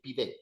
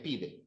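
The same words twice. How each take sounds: First: The stress is on the last syllable. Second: The stress is on the first syllable. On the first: The speaker calls it wrong. "You're not putting the emphasis on the last syllable. You don't say pide" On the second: The speaker calls it right. "So that would be the second last syllable"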